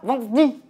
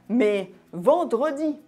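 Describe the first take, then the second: First: The E in vendredi is dropped. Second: The E in vendredi is pronounced. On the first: The speaker calls it wrong. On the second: The speaker calls it right.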